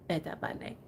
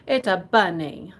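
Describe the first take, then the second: First: Whispered. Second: Said in the usual way. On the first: Shown as a demonstration. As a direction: repeat it in a breathy whisper.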